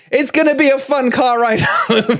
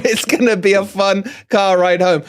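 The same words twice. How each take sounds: First: Chuckling through the line about a fun car ride; laughing. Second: Said in the usual way. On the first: Real, not acted. Dad laughing about the car ride home with rival-fan sons.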